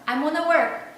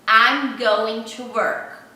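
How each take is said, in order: First: It is said faster, with 'gonna' squeezed further. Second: Every word is said fully and separately. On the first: This is how natives say it at work, in a hurry. "ele vai falar mais rápido ainda" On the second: This is the form taught in school. "Você aprende assim"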